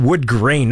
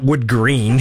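First: "wood grain" with a clear long ay vowel in grain. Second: "wood green" with a long ee vowel in green. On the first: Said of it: "not wood green". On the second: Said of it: "He said wood grain". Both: Shown as a demonstration.

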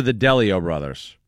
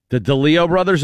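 First: DeLeo stressed on the first syllable, DELL-ee-oh. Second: DeLeo stressed on the middle syllable, duh-LEE-oh. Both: Shown as a demonstration. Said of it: "How do you say it".

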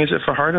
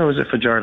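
First: Fajardo said fa-HAR-do; Fajardo with an H sound. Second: Fajardo said fa-JAR-do; Fajardo with a J sound. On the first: Host asking for a ruling on the name, Fajardo with an H sound. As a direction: say the j in Fajardo as a Spanish H. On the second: Host offering the other option, Fajardo with a J sound. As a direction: say the j in Fajardo as an English J. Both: Shown as a demonstration. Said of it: "do we have a ruling?".

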